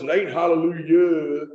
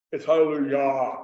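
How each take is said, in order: First: "hallelujah" drawn out with a dull "yuh" ending; "hallelujah" with a slack final vowel; country HALLELUJAH. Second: "hallelujah" with an open "yah" ending; "hallelujah" ending in a round, open ah; choral HALLELUJAH. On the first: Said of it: "he would tell us". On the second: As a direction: say "hallelujah" with pure, open choir vowels. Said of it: "we learned to pronounce our vowels". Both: Shown as a demonstration.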